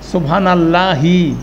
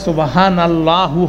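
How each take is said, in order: First: Allah ends with an 'i' vowel. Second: Allah ends with a 'u' vowel. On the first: The speaker calls it right. "আল্লাহ শব্দটা হচ্ছে আল্লাহি" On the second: The speaker calls it wrong. "কোনো সময় সুবহান আল্লাহু হবে না"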